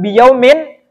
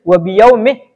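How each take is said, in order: First: The word ends with a final n sound. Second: The word ends without a final n sound. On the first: The speaker calls it wrong. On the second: The speaker calls it right. "dengan dibaca jir"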